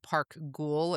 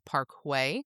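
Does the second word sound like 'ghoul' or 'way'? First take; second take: ghoul; way. First: The second word sounds like 'ghoul'. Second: The second word sounds like 'way'. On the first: It is read the way it is spelled. The speaker calls it wrong. "is what it looks like" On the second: It is said the way locals say it. The speaker calls it right. "apparently the pronunciation is Parkway"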